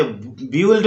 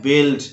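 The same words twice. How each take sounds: First: बिल्ड said as "bi-yuld", u sounded; children's mispronunciation. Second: बिल्ड as one syllable "bild"; correct pronunciation. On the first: Teacher quoting children's mistake, बिल्ड as bi-uld. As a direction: say बिल्ड wrongly with a "yu" inside. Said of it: "बोलते हैं जो गलत है". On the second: Teacher correcting the children, बिल्ड with silent u. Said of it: "इसको बोलना है बिल्ड". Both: Shown as a demonstration.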